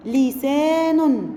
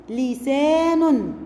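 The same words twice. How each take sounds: First: لسان slow, joined up; slow reading. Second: لسان drawn out slowly; slow syllable reading. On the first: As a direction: say لسان slowly as one word. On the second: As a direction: read لسان slowly for children. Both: Shown as a demonstration. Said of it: "تعالوا نشوف ده في كلمات".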